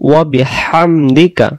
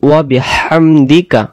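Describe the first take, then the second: The two takes are said the same way.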